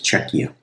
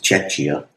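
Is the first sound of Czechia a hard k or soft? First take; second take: hard k; soft. First: The word begins with a hard k sound. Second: The word begins with a soft ch sound. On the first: The speaker calls it right. "actually the C H is hard in that" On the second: The speaker calls it wrong. "I've been pronouncing that wrong. I thought it was Czechia"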